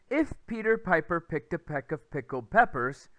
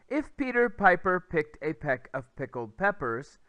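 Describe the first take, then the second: Both takes have the same delivery.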